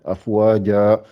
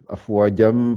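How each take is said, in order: First: It ends in a lengthened vowel, no nasal. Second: It ends in a nasal sound joined onward. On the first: The reciter stops at this word. "Mais si je m'arrête, Afwaja" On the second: The reciter keeps going without stopping. "si je continue sans m'arrêter, ça fait Afwajam fasabbih"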